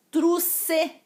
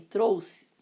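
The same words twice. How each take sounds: First: Truce, with the ou flattened to u; wrong form. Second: Trouxe with a full ou diphthong; correct form. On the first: Teacher mocking the common mistake, raised pitch. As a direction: say Truce as a sloppy single vowel. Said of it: "em vez de trouxe". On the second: Teacher giving the right form, plainly. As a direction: say Trouxe with a clear ou glide. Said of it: "Não fala truce não". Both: Shown as a demonstration.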